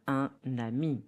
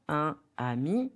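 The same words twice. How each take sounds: First: UN AMI linked with N, un-nami; N sound joining "un" to "ami"; liaison. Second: UN AMI apart, no N; "Un ami" as two words, nasal vowel then ami; no liaison. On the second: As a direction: say "Un ami" without linking. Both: Shown as a demonstration. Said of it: "in the right pronunciation".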